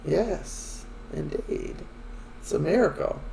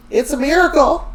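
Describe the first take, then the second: First: Softly understated agreement; imitating a man going along with it; playing along. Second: High-pitched, louder gushing announcement; hammed-up excited exclamation; mock elation. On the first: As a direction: humour her with a quiet, mild echo. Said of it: "so he's playing along". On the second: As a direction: proclaim it like joyful, wondrous news. Excited Anna claims a miracle pregnancy.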